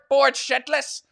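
It is said imitating his mum's voice.

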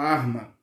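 The word is said with an R, Minas style.

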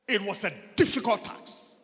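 The word difficult is strongly stressed.

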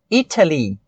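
The T is a crisp, clear T sound. This is the British pronunciation. "Uma pronúncia mais britânica... seria Italy, exatamente com o som de T"

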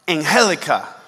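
The name is said with Spanish pronunciation. "pronounced in Espanol, it's something like"

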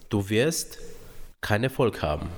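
It is said in a soft, gentle tone. The message is delivered gently. "das andere war sehr weich"

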